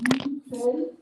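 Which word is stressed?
we. The stress falls on the word we. "you may stress on uh, we"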